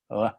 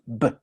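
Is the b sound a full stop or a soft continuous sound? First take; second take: soft continuous; full stop. First: The lips stay apart, making a soft continuous sound. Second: The lips close fully, making a stopped sound. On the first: This is how it sounds between two vowels. "se realiza así, uh, sin tocar los labios" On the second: This is how it sounds at the start of a word. "se realiza así, con el, los dos labios cerrados"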